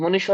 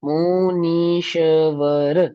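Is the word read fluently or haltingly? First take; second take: fluently; haltingly. First: The word is read smoothly and fluently. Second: The word is read slowly and haltingly. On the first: The speaker calls it right. "ऐसे पढ़ो भैया" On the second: The speaker calls it wrong. "मैं आपको ऐसे पढ़ाऊं"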